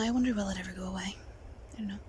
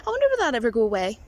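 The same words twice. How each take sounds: First: Fast, whispered to herself; whispered aside. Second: Said in the usual way. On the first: Real, not acted. Wondering if nerves will pass, whispered aside. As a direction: mutter it to yourself, unvoiced. Musing on nervousness.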